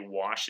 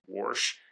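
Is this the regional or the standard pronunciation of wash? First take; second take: standard; regional. First: It uses the standard broadcaster's pronunciation. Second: It uses the regional Missouri pronunciation. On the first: This is the form learned for broadcasting. "consciously retrained my brain for was to say wash" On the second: This is the form heard growing up. "instead of wash"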